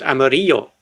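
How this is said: It is said in a general Spanish accent. "in Spanish they would pronounce it amarillo"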